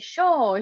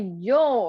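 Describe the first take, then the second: First: The word starts with an sh sound. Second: The word starts with a y sound. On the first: The speaker has an Argentinian accent. "They say sho" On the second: The speaker has a non-Argentinian accent. "They don't say yo"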